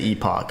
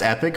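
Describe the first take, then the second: First: The word is said the British way. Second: The word is said the non-British way. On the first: "I think the British people say epoch" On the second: "I learned that that word's pronounced epic"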